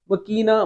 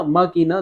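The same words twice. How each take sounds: First: مکینہ as ma-KEE-na, first vowel short. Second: ماکینہ as MAA-kee-na, first vowel held; long first vowel. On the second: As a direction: stretch the opening "maa" in ماکینہ. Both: Shown as a demonstration. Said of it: "دونوں بولتے ہیں".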